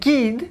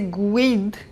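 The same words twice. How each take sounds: First: The u after the g is silent. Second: The u after the g is sounded. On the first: The speaker calls it right. "we say guide. We don't pronounce the U" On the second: The speaker calls it wrong. "we don't say guide"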